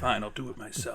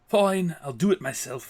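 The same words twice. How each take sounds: First: It is said in the speaker's ordinary accent. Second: It is said in a put-on Scottish-sounding accent. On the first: "it's the Thanos answer" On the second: "say it with a British accent"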